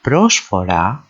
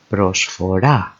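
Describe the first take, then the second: First: Prosphora as PROS-fo-ra; prosphora, weight on PROS; stress on first syllable. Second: Prosphora as pros-fo-RA; prosphora, weight on RA; stress on final syllable. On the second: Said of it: "means offering". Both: Shown as a demonstration.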